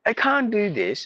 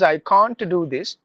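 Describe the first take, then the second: First: The t after n is dropped. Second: The t after n is clearly pronounced. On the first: "they say I can't do this because N T combination, they will silence the T" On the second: "We say sometimes I can't do this"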